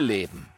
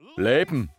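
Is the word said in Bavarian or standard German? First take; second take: standard; Bavarian. First: It is said in a standard German accent. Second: It is said in a Bavarian accent.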